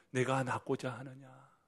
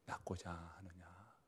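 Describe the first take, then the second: First: Said in the usual way. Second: 낫고자 하느냐 whispered slowly, rising; whispered question. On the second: Acted. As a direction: murmur 낫고자 하느냐 softly first. (낫고자 하느냐를 속삭이며 천천히)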